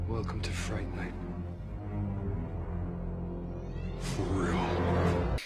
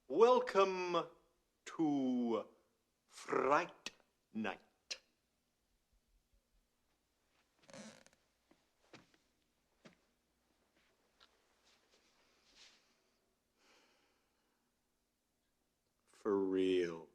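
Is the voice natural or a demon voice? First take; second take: demon voice; natural. First: It is said in a distorted demon voice. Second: It is said in a plain, confident voice.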